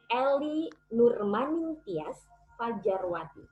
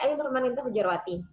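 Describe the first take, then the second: First: The name is said slowly with careful sounds. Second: The name is said quickly and runs together. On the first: The speaker calls it right. "Saya akan lebih memperlambat speed saya" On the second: The speaker calls it wrong. "Kalau saya menggunakan speed yang cepat"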